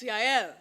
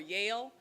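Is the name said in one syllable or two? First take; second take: two; one. First: The name is said as two syllables. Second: The name is said as one syllable. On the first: The speaker calls it right. "It's Yael" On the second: The speaker calls it wrong. "most people call her Yale. That's not right"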